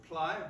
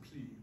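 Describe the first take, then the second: First: The vowel sounds like the word 'eye'. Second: The vowel sounds like the word 'see'. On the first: The speaker calls it wrong. "So ply" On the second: The speaker calls it right. "but we pronounce it pli"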